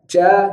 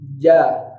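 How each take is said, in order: First: The consonant is a hissy ch sound. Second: The consonant is a clean j sound. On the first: The speaker calls it wrong. "Jangan ca" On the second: The speaker calls it right. "naiknya agak langit-langit belakang"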